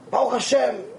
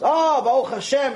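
First: Subdued, dutiful acted reply; downbeat Baruch Hashem. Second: Lifted, relieved acted reply; thankful Baruch Hashem. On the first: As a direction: answer like a weary complainer, understated. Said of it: "He's complaining nonstop". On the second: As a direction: open with a grateful "oh", lightly acted. Waterman now answers thankfully next day.

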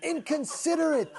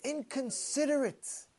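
First: Higher, half-hearted yelled insult; mock scream. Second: Muttered insult. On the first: Fellow yells at the parked driver, a mild mock yell. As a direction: toss the word out as a retold yell. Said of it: "He screams out". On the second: Retold or imitated. Fellow mutters at the double-parked driver, slow and soft. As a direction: mutter it under your breath with contempt. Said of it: "one of the fellows says".

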